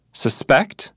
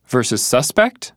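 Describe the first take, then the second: First: Suspect said susPECT, weight on the end; verb stress. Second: Suspect said SUSpect, weight up front; noun stress. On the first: [name] lists the verb for Marta, suspect stressed on its end. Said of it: "One's a verb". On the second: [name] lists the noun for Marta, suspect stressed up front. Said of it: "the other's a noun". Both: Shown as a demonstration.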